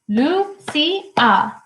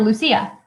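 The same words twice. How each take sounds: First: Lucia in three held beats, Lu... ci... a; syllable by syllable. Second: Said in the usual way. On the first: Shown as a demonstration. Teacher helping the class count syllables, syllable by syllable. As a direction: split Lucia up, starting high and stepping down. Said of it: "Does it have two syllables". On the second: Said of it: "So for example".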